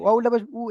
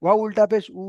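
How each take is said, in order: First: উ cut short after উল্টা পেশ; wrongly short vowel. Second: Final উ held long as oo; stretched vowel. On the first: Retold or imitated. Teacher imitating a student's mistake, unstretched short উ. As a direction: say the last উ with no stretch. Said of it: "এই যে আপনি ভুল পড়ছেন". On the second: Shown as a demonstration. Teacher correcting the student's spelling, long held উ. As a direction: draw out উ after উল্টা পেশ. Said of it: "এর টান দিয়ে বলতে হবে".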